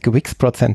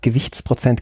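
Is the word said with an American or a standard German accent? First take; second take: American; standard German. First: It is said in an American accent. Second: It is said in a standard German accent. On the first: The speaker calls it wrong. "Deutsch mit amerikanischem Akzent gesprochen" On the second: The speaker calls it right. "statt Gewichtsprozent"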